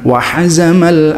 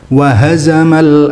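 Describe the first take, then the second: First: The h is a heavy, throaty sound. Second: The h is a light, plain breath sound. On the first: The speaker calls it wrong. "bukan wahazamal ahzab" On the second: The speaker calls it right. "lafadz hazama itu pakai ha, bukan ha"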